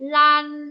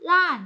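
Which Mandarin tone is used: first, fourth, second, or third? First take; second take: first; fourth. First: The pitch stays high and level. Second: The pitch falls sharply from high.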